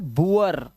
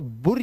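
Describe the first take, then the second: First: The vowel glides from oo to uh. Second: The vowel is a single short u. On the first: The speaker calls it right. "Double ओ का जो उच्चारण है वो उआ करना है आपको" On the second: The speaker calls it wrong. "अब इसे बुर या बोर मत पढ़ लेना"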